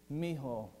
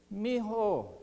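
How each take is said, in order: First: Low-key, gentle term of endearment; tender affection. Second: Higher-pitched fond call-out, mildly raised; affectionate call. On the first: Jesus speaking fondly to one who needs him, tender affection. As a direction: say it gently, close and fond. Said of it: "he's conveying affection to Peter". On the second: Jesus calling to Peter from the shore, affectionate call. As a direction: call out fondly, not a full yell. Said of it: "he yells out to, to Peter". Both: Acted.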